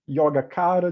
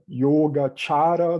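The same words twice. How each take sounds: First: It is pronounced with Brazilian Portuguese sounds. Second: It is pronounced with Sanskrit-style sounds. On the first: "de um jeito mais brasileiro" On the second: "do jeito sânscrito"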